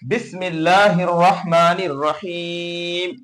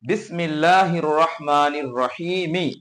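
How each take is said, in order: First: The voice stops on the final m, no vowel. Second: The final m is followed by a short i vowel. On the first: "টান দিয়ে এখানে মিমের উপর থামতে হবে, সাকিন করে মিমকে" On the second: "মিম জের মি"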